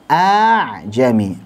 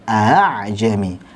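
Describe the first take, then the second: First: The second hamzah becomes a long drawn vowel. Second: The second hamzah is softened, between stop and vowel. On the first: The speaker calls it wrong. "Kalau hamzah dengan mat a'jami, a dibaca panjang" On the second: The speaker calls it right. "ketika dibaca tashil sangat mudah, seperti kita seret saja"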